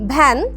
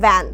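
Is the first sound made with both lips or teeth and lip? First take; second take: both lips; teeth and lip. First: The first sound is made with both lips. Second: The first sound uses upper teeth on lower lip. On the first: The speaker calls it wrong. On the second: The speaker calls it right.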